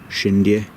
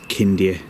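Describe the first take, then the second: First: The name begins with an sh sound. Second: The name begins with a k sound. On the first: This is how some people say it. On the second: This is how it is said in Romanian. "but in Romanian it is Kindia Tower"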